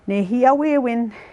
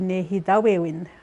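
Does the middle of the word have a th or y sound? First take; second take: y; th. First: The middle consonant is a y sound. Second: The middle consonant is a th sound. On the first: This is the Y dialect form. "as the Cree language within the Y dialect" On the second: This is the TH dialect form. "That's how they say it in the uh, T H dialect"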